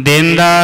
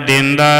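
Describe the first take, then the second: The two takes are said the same way.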